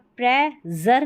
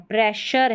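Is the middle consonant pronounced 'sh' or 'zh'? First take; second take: zh; sh. First: The middle consonant is a voiced 'zh' sound. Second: The middle consonant is a voiceless 'sh' sound. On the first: The speaker calls it wrong. "यहाँ पर प्रे जर नहीं है" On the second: The speaker calls it right. "प्रेशर है, इसमें शर पढ़ा है"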